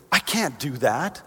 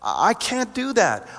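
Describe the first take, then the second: First: Said in the usual way. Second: Slow, much higher protest; high-pitched protest. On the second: Acted. Believer answering God's assignment, protesting in a high, slow voice. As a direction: draw it out high, as if the task is impossible.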